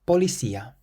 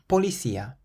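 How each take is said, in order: First: The c is sounded like an s. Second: The same.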